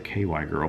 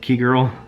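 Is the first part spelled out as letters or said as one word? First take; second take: letters; one word. First: The first part is spelled out as two letters. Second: The first part is said as the word key. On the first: The speaker calls it wrong. "I want to say K Y girl, but I don't know" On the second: The speaker calls it right.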